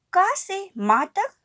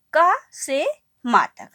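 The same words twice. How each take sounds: First: "का से मा तक" drawn out slowly and pitched up high, each syllable held apart; slow, lifted recital. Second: Said in the usual way. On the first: Shown as a demonstration. Teacher slowly stressing "का से मा तक" for children. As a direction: stretch "का से मा तक" high and slow so the children can follow. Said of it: "बच्चों". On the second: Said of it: "जैसे".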